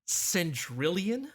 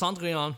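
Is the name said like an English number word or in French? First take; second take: English number; French. First: It sounds like an English number word. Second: It is said with a French pronunciation. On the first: The speaker calls it wrong. "I was pronouncing it as Centrillion, like a number" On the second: The speaker calls it right. "Now I know better. It's Cendrillon"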